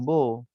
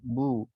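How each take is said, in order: First: The vowel is an open 'oh' sound. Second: The vowel is a rounded 'oo' sound. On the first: The speaker calls it wrong. "bukan bo" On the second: The speaker calls it right. "Bu bu bukan bo"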